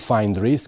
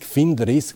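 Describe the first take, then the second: First: Find is said like the English word find. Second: Find is said like the start of Finnish. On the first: The speaker calls it wrong. "nu Find Risk" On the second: The speaker calls it right. "pentru că Find vine de la Finish"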